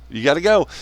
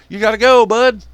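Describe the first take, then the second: First: Said in the usual way. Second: "go" yelled high and loud; you gotta go. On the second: Real, not acted. Telling foreign assets to leave, shouting the order.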